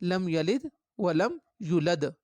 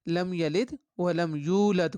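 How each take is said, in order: First: The vowel in yulad is cut short. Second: The vowel in yulad is held long. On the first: The speaker calls it wrong. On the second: The speaker calls it right.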